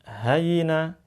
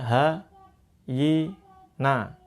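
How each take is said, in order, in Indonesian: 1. Suku katanya disambung dengan cepat tanpa jeda. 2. Setiap suku kata diucapkan terpisah dengan jeda. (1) "sekarang coba dipercepat" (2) "kalau dulu kan awal-awal kan bacanya ha, yi, na"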